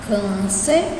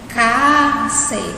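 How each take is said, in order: First: The first vowel is closed and darker. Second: The first vowel is open with wide mouth. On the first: The speaker calls it right. "com o som fechado" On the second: The speaker calls it wrong. "Se fosse com o som aberto"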